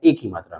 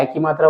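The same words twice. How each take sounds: First: "ए" as a close "e", as in fake; close E vowel. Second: "ए" said as an open "ai", as in fan; open AI vowel. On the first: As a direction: keep "ए" a pure, close "e". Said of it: "एक होता है ए की मात्रा में". ("ए" का सीधा "ए" उच्चारण) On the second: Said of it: "एक होते हैं ए की मात्रा वाले में". ("ए" का खुला "ऐ" उच्चारण) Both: Shown as a demonstration.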